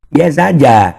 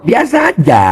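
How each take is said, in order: First: Said in the usual way. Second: Biasa aja sung out high and teasing; high teasing sing-song; mocking biasa aja. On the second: Shown as a demonstration.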